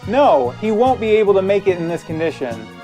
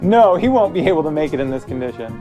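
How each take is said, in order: First: It is said in his ordinary voice. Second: It is said in a different character voice.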